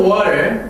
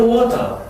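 First: American water, flapped t and r-coloured ending; r-ful American pronunciation; American accent. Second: British water with a clear t, open ending; r-less British pronunciation; British accent. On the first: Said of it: "미국에서는 water". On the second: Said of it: "영국에서는 water". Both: Shown as a demonstration.

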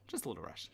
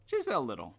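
First: Much softer, lower trailing mutter; muttered under breath. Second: Said in the usual way. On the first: Real, not acted. Player muttering to himself as he rides on, softly. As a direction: mumble it to yourself as it fades.

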